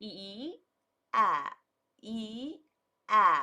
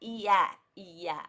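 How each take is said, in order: First: The two vowels are said slowly and separately. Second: The two vowels are said fast, merging together. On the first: "ಒಂದು ಐದಾರು ಸಲ ಈ ಸೌಂಡನ್ನು ಹೇಳ್ತಾ ಹೋಗಿ" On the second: "ಫಾಸ್ಟಾಗಿ ಹೋಗ್ತಾ ಹೋಗ್ತಾ ಹೇಳ್ತಾ ಹೋಗಿ"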